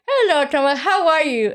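It is spoken with a pencil held in the mouth. "You put it in your mouth like this"

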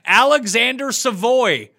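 The name is said the American way.

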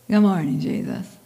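It is said in a grumpy tone.

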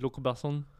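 The name is said with a French accent. "That was a really terrible French accent"

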